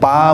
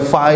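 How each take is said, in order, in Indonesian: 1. Huruf itu diawali bunyi p. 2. Huruf itu diawali bunyi f.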